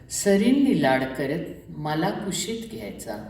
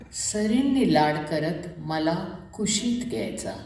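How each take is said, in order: The two takes are said the same way.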